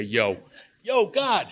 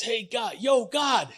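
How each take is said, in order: First: High, louder Yo yo God, hollered upward; hammed-up contractor hail with Yo stretched out; contractor talk. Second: High shouted call up to God, a tough contractor yelling upward. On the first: Shown as a demonstration. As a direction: yell it up like a site foreman. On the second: Acted. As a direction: bellow up at the sky like a guy on a job site. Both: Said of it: "That's how contractors talk".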